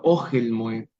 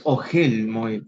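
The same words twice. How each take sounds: First: Ogel Moed with Ogel stressed first, OH-gel; correct stress. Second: Ogel Moed with Ogel stressed at the end, o-GEL; the mistaken Ogel, stress on the last syllable; wrong stress. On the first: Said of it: "el famoso acento conocido como mercá". (Ogel Moed bien acentuado, O-guel, en la primera sílaba) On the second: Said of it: "No es Ogel Moed". (Ogel Moed mal acentuado, o-GUEL, en la última sílaba) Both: Shown as a demonstration.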